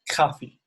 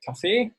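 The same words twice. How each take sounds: First: The stress is on the first syllable. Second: The stress is on the second syllable. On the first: This is the Swiss German form. "the intonation is always in the beginning of every word" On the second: This is the standard German form. "in German you say Kaffee"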